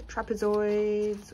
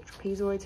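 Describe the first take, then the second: First: "trapezoids" drawn out slowly; first pronunciation. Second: "trapezoids" quicker and softer, as an alternative; alternative pronunciation. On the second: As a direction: offer "trapezoids" softly as the other pronunciation. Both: Shown as a demonstration. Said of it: "however you pronounce it".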